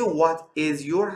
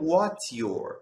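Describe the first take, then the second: First: What and is are said as separate words. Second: What and is are joined into one syllable. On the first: "به جای What is your" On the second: "همچنین میتونیم بگیم What's your"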